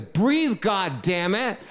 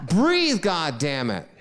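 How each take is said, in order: First: High, loud mock order from the mother; mother yelling. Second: The most desperate yell, then it gives out; harder mother yell. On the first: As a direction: bark it at him to make him breathe. Mother yelling at choking son. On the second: Retold or imitated. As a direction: Breathe shouted very high and loud, then God damn it dropping back. Mother yelling again, harder.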